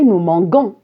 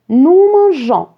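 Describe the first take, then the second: First: The verb has a hard g sound. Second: The verb has a soft j sound. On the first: The speaker calls it wrong. "ça va se prononcer nous manguons et c'est faux" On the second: The speaker calls it right. "j'ai ajouté un E"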